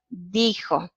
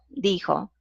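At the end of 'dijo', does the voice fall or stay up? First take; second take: stays up; falls. First: The voice stays up, as if more follows. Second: The voice falls, as at a sentence end. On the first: A quotation is about to follow. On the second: The sentence is finished.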